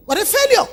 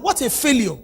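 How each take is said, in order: First: "failure" thrown out higher in scorn; scornful lament. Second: Said in the usual way. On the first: Shown as a demonstration. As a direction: repeat it higher, mocking the failure.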